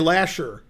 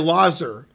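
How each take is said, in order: First: The middle consonant is an sh sound. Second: The middle consonant is a z sound. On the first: The speaker lives in the city. "as if it was spelled L A S H E R" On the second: The speaker is not from the city. "you would say Lazar"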